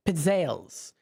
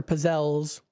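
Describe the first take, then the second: First: "pizzelles" said as pit-SAYLS; grandma's pronunciation. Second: "pizzelles" said as puh-ZELLS; alternative pronunciation. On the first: Retold or imitated. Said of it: "how she always pronounced this too". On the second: Shown as a demonstration. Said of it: "you might pronounce it differently".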